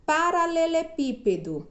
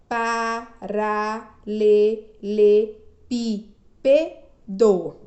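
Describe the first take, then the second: First: Said in the usual way. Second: "paralelepípedo" loud and slow as pa, ra, le, le, pí, pe, do; syllable by syllable. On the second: Shown as a demonstration. Teacher showing a long word, "paralelepípedo" syllable by syllable. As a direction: punch out all seven syllables of "paralelepípedo", pausing between. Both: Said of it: "Sete sílabas".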